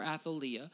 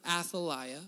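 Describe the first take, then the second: First: Athaliah with a long "ee" sound; Athaliah said ath-uh-LEE-uh. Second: Athaliah with a long "eye" sound; Athaliah said ath-uh-LIE-uh. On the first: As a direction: say Athaliah to rhyme with Maria. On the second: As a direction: say Athaliah to rhyme with Isaiah. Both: Shown as a demonstration. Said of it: "depending on how you say it".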